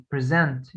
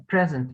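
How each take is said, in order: First: "present" stressed on the second syllable, pre-ZENT; verb stress. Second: "present" stressed on the first syllable, PREZ-ent; noun stress. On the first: Teacher giving the verb example, "present" stressed at the end. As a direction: push the weight onto the end of "present". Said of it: "هنا قلت present". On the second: Teacher giving the noun example, "present" stressed up front. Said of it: "عملت ستريس على first syllable". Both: Shown as a demonstration.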